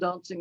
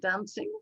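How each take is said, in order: First: It is said in an English accent. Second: It is said in an American accent. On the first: "if you're English" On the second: "if you're American"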